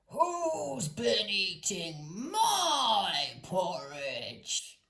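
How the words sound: It is said in a great gruff voice.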